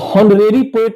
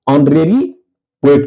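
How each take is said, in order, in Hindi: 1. पहला शब्द h ध्वनि से शुरू होता है। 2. पहला शब्द स्वर ध्वनि से शुरू होता है। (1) "हॉनरेरी पोएट नहीं कहते हैं" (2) "साइलेंट के बाद ऑनरेरी पोएट कहते हैं"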